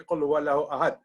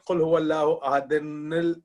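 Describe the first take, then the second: First: The last word stops short on its consonant. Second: The last word runs on with added syllables. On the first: The verse is recited with a stop at its end. "We always say" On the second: The verse is joined to the next one. "you said"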